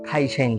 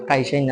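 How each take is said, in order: First: The first consonant is an aspirated kh sound. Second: The first consonant is a plain k sound. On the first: "খাইসাইন বলে" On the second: "কাইসাইন না বলে"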